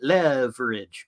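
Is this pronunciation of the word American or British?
American. The word is said with an American pronunciation. "if you're American, uh, you might be used to calling it leverage"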